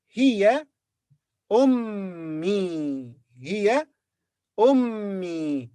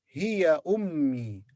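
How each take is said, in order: First: "Hiya" rising, pause, drawn-out "ummi" falling; word by word. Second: "Hiya ummi" slow, without a break; joined phrase. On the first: Teacher models she is my mother, "Hiya" and "ummi" apart. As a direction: hold the double m in a separate "ummi". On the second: Teacher repeats she is my mother, "Hiya ummi" as one phrase. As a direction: link "Hiya" into "ummi", falling at the end. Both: Shown as a demonstration. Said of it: "she is my mother".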